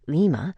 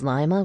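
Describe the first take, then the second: First: It is said with a Spanish accent. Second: It is said with an English accent.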